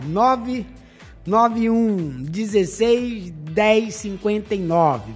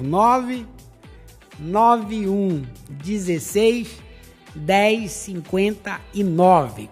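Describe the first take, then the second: First: The number is said fast. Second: The number is said slowly.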